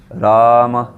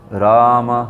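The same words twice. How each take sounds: Both takes have the same delivery.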